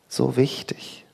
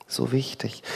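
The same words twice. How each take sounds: First: Said in the usual way. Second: Whispered repeat. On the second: Real, not acted. Preacher echoes himself, whispering "so wichtig".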